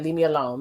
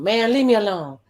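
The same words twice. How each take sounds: First: Said in the usual way. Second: Exasperated retold brush-off. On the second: Recapper quotes a man wanting to be left alone, exasperated. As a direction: imitate him begging off, pitch lifted.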